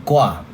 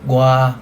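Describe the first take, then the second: Both takes have the same delivery.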